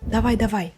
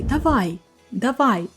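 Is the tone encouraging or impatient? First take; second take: impatient; encouraging. First: It sounds impatient and pushy, urging speed. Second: It sounds warm and encouraging, cheering someone on. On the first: Hurry up. "Can be hurry up" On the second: You can do it. "here it's more like motivational speech"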